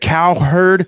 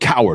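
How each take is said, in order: First: The name sounds like two parts, cow-herd. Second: The name sounds like the word coward. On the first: The speaker calls it right. "Is it Cowherd" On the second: The speaker calls it wrong. "or is it Coward?"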